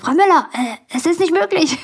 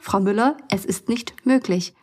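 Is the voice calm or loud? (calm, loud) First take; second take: loud; calm. First: It is said loudly with a raised voice. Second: It is said calmly at normal volume. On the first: The speaker is losing composure. The speaker calls it wrong. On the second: The speaker stays firm but composed. The speaker calls it right.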